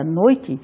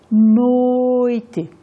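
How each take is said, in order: First: Said in the usual way. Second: "noite" with the first syllable held long and level; prolonged syllable in noite. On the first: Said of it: "a palavra noite era pronunciada". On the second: Shown as a demonstration. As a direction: draw out the noi- of noite. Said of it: "pronunciada como se fosse ... sílabas que se prolongavam".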